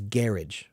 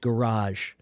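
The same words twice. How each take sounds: First: It is said the British way. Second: It is said the American way. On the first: "but they pronounce it as garage" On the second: "Americans pronounce it as garage"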